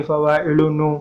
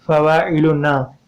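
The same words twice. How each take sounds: First: फ़वाइलुनु ending in a rounded "noo"; added waw ending. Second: फ़वाइलुना drawn out, ending in a long open "naa"; added alif ending. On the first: Teacher showing what adding waw does, फ़वाइलुनु ending in "noo". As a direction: say फ़वाइलुनु with a final "oo" vowel. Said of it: "अगर हम वाव लगाएंगे". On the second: Teacher showing what adding alif does, फ़वाइलुना ending in long "naa". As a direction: say फ़वाइलुना slowly with a final "aa" vowel. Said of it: "अगर हम अलिफ add करते हैं". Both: Shown as a demonstration.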